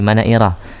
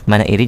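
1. Kata itu berakhir dengan vokal a. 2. Kata itu berakhir dengan vokal i. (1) "manairi jadi manaira" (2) "diperbaiki harokat dari manaira, ya, manairi jadi manaira"

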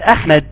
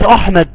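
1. الهمزة الأولى تُنطق خفيفة ورقيقة. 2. الهمزة الأولى تُنطق ثقيلة وممتلئة. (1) "بنقول احمد" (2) "ما بنقولش احمد"

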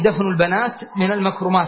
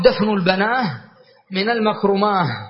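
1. تنتهي لواحق الجمع بصوت التاء. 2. تنتهي لواحق الجمع بصوت الهاء.

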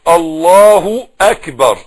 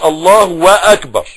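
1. لا يوجد صوت w بين الكلمتين. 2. صوت w يربط بين الكلمتين. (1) "لا الله اكبر" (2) "عشان ما تقولش الله واكبر"

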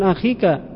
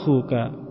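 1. Vokal setelah kh adalah i. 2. Vokal setelah kh adalah u. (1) "bukan akhika" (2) "pakai wawu"

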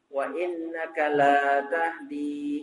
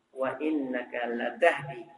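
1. Vokal setelah huruf l panjang. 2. Vokal setelah huruf l pendek. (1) "Kalau lamnya dipanjangkan artinya berubah" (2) "lamnya tidak panjang"

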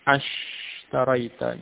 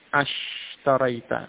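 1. 'a' langsung menyambung ke 'sh'. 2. 'a' langsung menyambung ke 'sh'.

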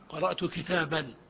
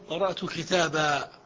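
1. الكلمة الأخيرة تنتهي بصوت النون. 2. الكلمة الأخيرة تنتهي بألف ممدودة. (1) "في الوصل تقرأه بالنون" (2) "وفي الوقف قرأت كتابا في الألف"

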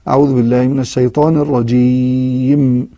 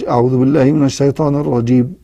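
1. الكلمة الأخيرة تنتهي بصوت m ممدود. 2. الكلمة الأخيرة تنتهي بصوت b مقطوع.

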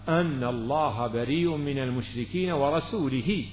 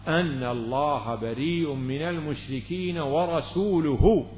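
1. تنتهي الكلمة الأخيرة بالصوت 'i'. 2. تنتهي الكلمة الأخيرة بالصوت 'u'. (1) "ليس هكذا يا أعرابي، يعني ليست هذه القراءة" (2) "فكيف هي يا أمير المؤمنين؟"

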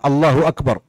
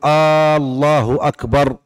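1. الحركة الأولى في «الله» قصيرة. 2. الحركة الأولى في «الله» ممدودة وطويلة. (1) "أن لا يلحن في هذه الجملة" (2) "فلا يمد الهمزة في الله"

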